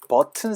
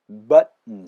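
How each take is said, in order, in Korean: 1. t는 끝소리 앞에서 완전히 터뜨려요. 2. t는 목에서 막혔다가 비음으로 넘어가요. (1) "버튼 사운드가" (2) "button 사운드로 달라지는 거"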